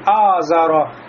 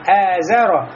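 First: The first vowel is open and full. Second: The first vowel is thin and fronted. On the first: The speaker calls it wrong. "не говорим «азаро»" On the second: The speaker calls it right. "а говорим «эзаро»"

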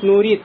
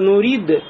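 First: The final d sounds like a t. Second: The final d is released with a bounce. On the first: The speaker calls it wrong. "будет нурид, как будто буква те" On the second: The speaker calls it right. "Вместо нурид"

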